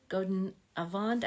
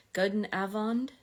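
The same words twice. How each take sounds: First: Avond stressed on the end, a-VOND, questioning rise; stress on second syllable. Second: Avond stressed on the A, AH-vond, questioning rise; stress on first syllable. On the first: Streamer unsure where the accent goes, Avond stressed on the second syllable. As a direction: try "Avond" with the weight moved onto "vond", as a question. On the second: Streamer checking her Dutch greeting with viewers, Avond stressed on the first syllable. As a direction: try "Avond" with the weight up front, as a question.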